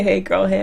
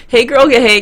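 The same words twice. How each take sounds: First: Said in the usual way. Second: Put-on loud, sassy hey girl; sassy greeting. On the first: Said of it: "my idea to say". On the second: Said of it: "can be deadly".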